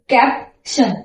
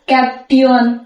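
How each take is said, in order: First: The ending is read as 'shun' with sh. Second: The ending is read as 'tee-un' with a t. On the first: The speaker calls it right. "त्याचा उच्चार आपल्याला बिनधास्त शन करायचा आहे" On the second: The speaker calls it wrong. "आपल्याला इंग्रजी वाचन येत नाही तर आपण ह्याला काय वाचणार?"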